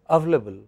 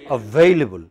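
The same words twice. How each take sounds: First: A sound in the word is left out. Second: Every sound in the word is pronounced. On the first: The speaker calls it wrong. "So you are using fewer sounds" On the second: The speaker calls it right. "How should it be pronounced?"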